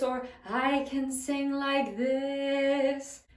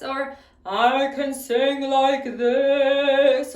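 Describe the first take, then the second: First: Slow sung line at normal volume, different colour; softer resonant singing. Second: Louder, slow, ringing sung line; full resonant singing. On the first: Teacher contrasts for students a softer sung resonance. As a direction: sing it back down, another resonance shape. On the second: Teacher shows students a big resonant sound, sung louder and slow. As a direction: fill the hall with a big sung phrase. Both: Shown as a demonstration.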